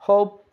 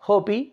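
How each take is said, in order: First: No extra vowel sound is added at the end. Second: An extra vowel sound is added at the end. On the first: The speaker calls it right. "उसको हम pronounce नहीं कर रहे" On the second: The speaker calls it wrong. "नॉट होपी"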